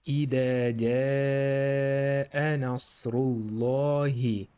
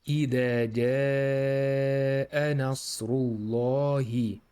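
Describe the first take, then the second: No difference in how they are said.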